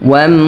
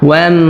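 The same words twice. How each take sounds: Both takes have the same delivery.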